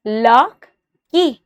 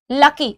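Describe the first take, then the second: First: "Lucky" split in two, a clear pause between luck and ky; syllable by syllable. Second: Said in the usual way. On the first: Shown as a demonstration. Teacher has students test the syllables, "Lucky" broken slowly in two. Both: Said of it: "अब lucky बोल के देखो".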